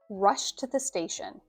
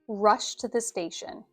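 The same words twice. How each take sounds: The two takes are said the same way.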